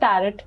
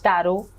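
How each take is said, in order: First: The word ends with a clear t sound. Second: The word ends without a t sound. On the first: The speaker calls it wrong. "कई बार हम इसको टैरट बोलते हैं, जैसे इसमें टी silent है" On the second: The speaker calls it right. "आपने इसका प्रोनाउंसिएशन बिल्कुल ठीक बोला है, इट्स टैरो"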